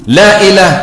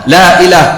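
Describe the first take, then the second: The two takes are said the same way.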